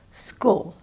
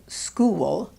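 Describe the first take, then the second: First: "school" as one short syllable, no glide before the L; imitated short vowel. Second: "school" as "skoo-wul", tight oo releasing into W and schwa; diphthong with mini syllable. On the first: Coach imitates student's pronunciation, "school" without the diphthong. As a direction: say "school" with a single clipped vowel. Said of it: "the way she says school instead of". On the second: Coach corrects learner, "school" with an added mini syllable. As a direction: draw "school" out into almost two syllables. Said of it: "we add a mini syllable". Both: Shown as a demonstration.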